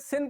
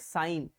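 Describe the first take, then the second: First: It is said with a short 'i' vowel. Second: It is said with a long 'eye' vowel. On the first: The speaker calls it wrong. "बहुत बच्चे क्या गलती करते हैं? इसे सिन पढ़ लेते हैं" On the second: The speaker calls it right. "इसे हम पढ़ेंगे साइन"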